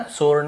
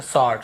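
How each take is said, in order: First: "स्वॉर्ड" as "sorn/sord", rounded O, no W; wrong vowel. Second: "स्वॉर्ड" as "sawd", open AW, no W; right vowel. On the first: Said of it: "स्वॉर्ड नहीं". ("स्वॉर्ड" को सोर्ड बोलकर) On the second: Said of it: "ऐसे स्वॉर्ड". ("स्वॉर्ड" को सॉर्ड बोलकर) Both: Shown as a demonstration.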